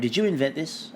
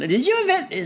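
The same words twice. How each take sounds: First: It is asked in an accusing tone. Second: It is asked in a fun, light tone.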